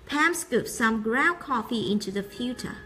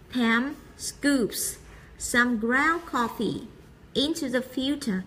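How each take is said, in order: First: It is read quickly and smoothly without pauses. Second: It is read slowly in short groups with pauses. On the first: "đọc từ chậm trong chuyển sang nhanh để cho câu của mình nó dần trơn hơn" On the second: "người ta sẽ tách ra thường là 2 đến 3 từ tạo thành một nhóm, xong người ta ngắt nghỉ hơi"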